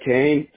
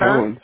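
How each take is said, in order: First: The vowel sounds like the 'ay' in day. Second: The vowel sounds like the 'oh' in go. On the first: This is how the speaker's own family says it. "I say it Kane" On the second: This is how some other people say it. "Some people say it Cohen"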